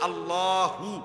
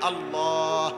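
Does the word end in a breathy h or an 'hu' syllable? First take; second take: hu syllable; breathy h. First: The word ends with a full 'hu' syllable. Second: The word ends with a breathy final h. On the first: "যদি শ্বাসে না ফেলান তাহলে তো হু কইতে হবে" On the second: "হুটারে শ্বাস ফেলাইলে হলো আল্লাহ"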